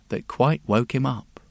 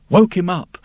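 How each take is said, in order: First: Said in the usual way. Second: Startled jolt. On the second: A narrator's reading. Repeated, louder, higher.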